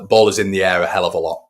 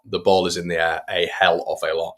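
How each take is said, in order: First: Said in the usual way. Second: "a" said as "ay" in "a hell of a lot"; careful enunciation. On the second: Real, not acted. Commentator restates his remark, carefully enunciating "a hell of a lot". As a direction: spell out "a hell of a lot" word by word, "a" as "ay".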